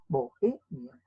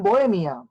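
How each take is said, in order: First: "Bohemia" lower and softer, split bo-e-mia; syllable by syllable. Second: Said in the usual way. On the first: Shown as a demonstration. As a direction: pause between O and E in "Bohemia". ("Bohemia" separado en sílabas, bo-e-mia) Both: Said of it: "no pueden estar juntas".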